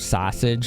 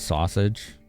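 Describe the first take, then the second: First: It has a sharp, Chicago-style vowel. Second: It has a plain, general American vowel. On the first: "you hear sausage a lot" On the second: "instead of sausage"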